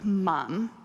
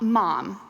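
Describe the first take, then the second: First: The word is said with an Australian vowel. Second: The word is said with an American vowel. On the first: The speaker calls it right. "it's mom" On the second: The speaker calls it wrong. "not mom"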